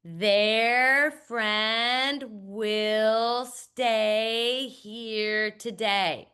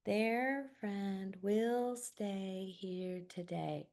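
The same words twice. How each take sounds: First: Very slow, careful word-by-word reading; slow accurate read-aloud. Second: Slow, hushed whisper reading; slow whispered read-through. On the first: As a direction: read each word out deliberately. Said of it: "all students ... say". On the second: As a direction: read it softly, word by word. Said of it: "I ask students to whisper read". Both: Shown as a demonstration.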